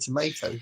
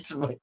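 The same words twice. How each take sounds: First: It is said with an American accent. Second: It is said with a British accent.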